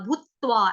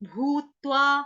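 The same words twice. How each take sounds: First: The first syllable is pushed out strongly. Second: The first syllable is pushed out only mildly. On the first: The speaker calls it wrong. "भूत्वा ऐसे करके नहीं बोलेंगे" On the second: The speaker calls it right. "But आघात जो है वो mild आएगा"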